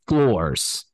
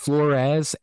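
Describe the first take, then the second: First: The name sounds just like the word floors. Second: The name sounds different from the word floors. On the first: The speaker calls it right. "It is Floors, like the floors in a house" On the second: The speaker calls it wrong. "We had heard it pronounced Flores"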